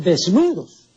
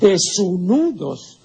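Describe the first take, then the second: First: The word has no extra inserted u sound. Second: An extra u sound is inserted in the word. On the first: The speaker calls it right. "sino desnudos" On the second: The speaker calls it wrong. "Aquí hay una U, ¿no?, epentética, una U que se le ha agregado indebidamente"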